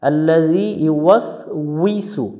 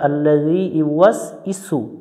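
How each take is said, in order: First: The syllable before 'su' starts with a 'w' sound. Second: The syllable before 'su' is a plain 'i'. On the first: The speaker calls it right. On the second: The speaker calls it wrong.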